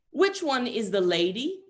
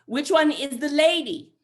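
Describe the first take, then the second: First: Put-on high, slow, puzzled kid's question; imitated child, slightly loud and drawn out; six-year-old boy. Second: Put-on very loud, high, drawn-out child voice; mock kid shouting each word slowly; insistent six-year-old. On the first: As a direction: ask it like a confused little boy. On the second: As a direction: demand it like a pestering little boy. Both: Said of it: "six-year-old".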